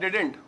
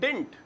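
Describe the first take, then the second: First: Two syllables, ending with a t sound. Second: One syllable, ending with a t sound. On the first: The standard contraction. "Did not को मिला के" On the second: An informal shortened form. "बड़ा ही short करके"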